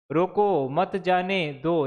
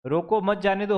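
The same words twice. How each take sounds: First: Slow, with separate pauses after "रोको" and "मत" before "जाने दो"; haperende leespauzes. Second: Said in the usual way. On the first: Shown as a demonstration. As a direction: break up "रोको, मत जाने दो" word by word, slowly. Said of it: "यहाँ आपने क्यों ये लगाया". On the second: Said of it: "होता तो चल जाता".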